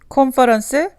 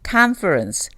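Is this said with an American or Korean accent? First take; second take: Korean; American. First: It is said with a Korean accent. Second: It is said with an American accent. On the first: The speaker calls it wrong. "컨퍼런스 대신에" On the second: The speaker calls it right. "다르죠"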